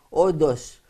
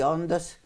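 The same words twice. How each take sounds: First: The n and t merge into a d. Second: The n and t are sounded separately. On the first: The speaker calls it wrong. "λένε όντως" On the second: The speaker calls it right. "αντί να πούνε πράγματι όντως"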